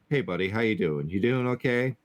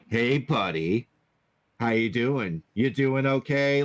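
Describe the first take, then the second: First: The greeting sounds warm and sincere. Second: The greeting sounds nasty and mocking. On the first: The speaker genuinely cares how the listener is. "like somebody comes over" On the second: The speaker is being mean and does not care. "if you have an asshole that's coming in"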